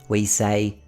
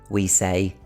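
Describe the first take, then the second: Both takes have the same delivery.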